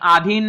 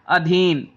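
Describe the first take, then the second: First: The first vowel is a long aa. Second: The first vowel is a short a. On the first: The speaker calls it wrong. "आधीन नहीं होता" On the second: The speaker calls it right. "बड़ा आ ना होकर छोटा आ होगा"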